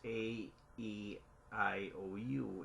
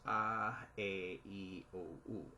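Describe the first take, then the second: First: The vowels are named with English letter sounds. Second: The vowels are named with Filipino letter sounds. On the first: "in English language" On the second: "in Filipino it's pronounced as"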